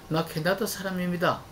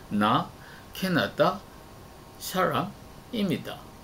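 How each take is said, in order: First: Every syllable is even, with no strong stress. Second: Some syllables carry strong stress, others are weak. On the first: The speaker calls it right. "한국 사람들처럼" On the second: The speaker calls it wrong. "라고 말하기 때문입니다"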